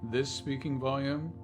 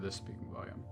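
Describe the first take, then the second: First: It is spoken at a louder volume. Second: It is spoken at a quieter volume. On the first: "First one, so a bit louder" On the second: "A S M R check"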